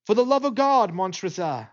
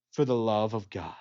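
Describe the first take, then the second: First: Higher, louder cry on "God", falling off on "Montresor"; desperate plea. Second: Cold mocking echo. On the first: Acted. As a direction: beg for your life. Chained man's desperate final plea. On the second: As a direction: throw his prayer back at him. Killer mockingly echoes the plea.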